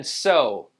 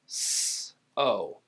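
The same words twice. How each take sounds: First: Said in the usual way. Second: "s, o" split apart; long voiceless s, then lower long o; sounded out. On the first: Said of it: "and then so". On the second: Shown as a demonstration. Teacher breaks down so, sounded out.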